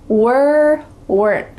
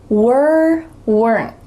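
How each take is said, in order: The two takes are said the same way.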